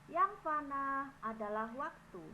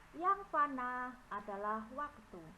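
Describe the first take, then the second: Both takes have the same delivery.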